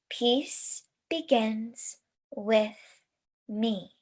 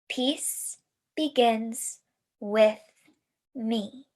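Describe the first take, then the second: Both takes have the same delivery.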